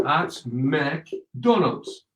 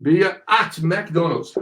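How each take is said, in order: First: Softer, very slow, "McDonald's" split in pieces; broken-up model phrase. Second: "at McDonald's" said slowly but joined up; slow model phrase. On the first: Teacher breaking the phrase down for students, very slow. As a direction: pause between "at", "Mc" and "Donald's". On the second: Teacher modelling the phrase for students, slow and connected. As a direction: say "McDonald's" carefully as one word. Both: Shown as a demonstration.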